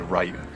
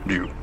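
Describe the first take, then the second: First: It starts with a plain English R sound. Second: It starts with a Japanese-style sound, unlike English. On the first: "because that's the way it would be pronounced" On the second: "there's no "du" sound in English"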